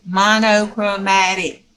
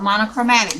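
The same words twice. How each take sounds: First: "Monochromatic" slowly sounded out, each part distinct; careful pronunciation. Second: Said in the usual way. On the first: Shown as a demonstration. Crafter showing viewers the word "Monochromatic", slow careful pronunciation. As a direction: stretch out "Monochromatic" with full o sounds, mah-no-cro-MAT-ic. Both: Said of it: "that's how Juju pronounced it".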